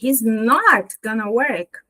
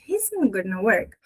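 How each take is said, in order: First: The word not is strongly stressed. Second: The negative is said subtly, without strong stress.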